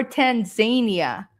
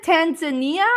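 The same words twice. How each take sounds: First: Tanzania as tan-ZAY-nee-uh; second option, Tanzania with long-A ZAY. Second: Tanzania as tan-zuh-NEE-uh; first option, Tanzania with stressed NEE. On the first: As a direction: put the stress of Tanzania on "zay". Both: Shown as a demonstration. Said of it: "I always wondered that".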